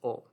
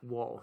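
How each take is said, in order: First: The word is a bare vowel sound. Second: The word begins with a w sound. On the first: The speaker calls it right. "It's o" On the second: The speaker calls it wrong. "it's not wool"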